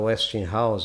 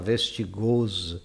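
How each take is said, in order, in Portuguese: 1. É pronunciado com pronúncia inglesa. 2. É pronunciado com pronúncia francesa. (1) "Ele não fala Westinghouse" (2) "ele fala Vestigose"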